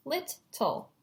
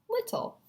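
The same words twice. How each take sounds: First: LITTLE as two chunks, lit, tle; split into syllables. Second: Said in the usual way. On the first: Shown as a demonstration. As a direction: break LITTLE between the syllables. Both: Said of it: "looking for the syllable chunks".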